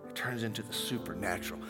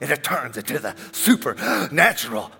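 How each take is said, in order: First: It is said in a plain speaking voice. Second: It is said in a showy preacher voice.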